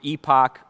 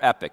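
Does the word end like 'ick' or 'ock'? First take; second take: ock; ick. First: The word ends with an 'ock' sound. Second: The word ends with an 'ick' sound. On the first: This is the British pronunciation. "the United Kingdom pronunciation of epoch" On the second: This is the usual pronunciation in the speaker's country. "in our country, it's most likely pronounced epic"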